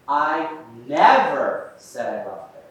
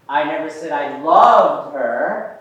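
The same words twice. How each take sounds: First: The stress falls on the word never. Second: The stress falls on the word loved. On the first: It was never said at any time. "we put that emphasis on the word never" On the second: A weaker feeling was claimed instead. "I said I liked her"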